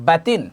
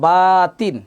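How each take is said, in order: First: The two syllables are joined smoothly together. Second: The two syllables are said slowly and separately. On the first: The speaker calls it right. "দুটো মিলে Batin" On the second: The speaker calls it wrong. "ধীরে স্থিরে পড়ি, যেমন বা তিন হবে না"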